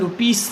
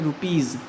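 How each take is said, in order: First: The final sound is a hissing s. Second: The final sound is a buzzing z. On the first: The speaker calls it wrong. "रुपीस नहीं बोलेंगे" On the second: The speaker calls it right. "बल्कि क्या बोलेंगे, रुपीज़"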